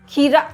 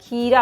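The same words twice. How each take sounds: First: The first vowel is short. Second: The first vowel is long. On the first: The speaker calls it wrong. "खीरा नहीं होता है" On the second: The speaker calls it right. "खीरा होता है"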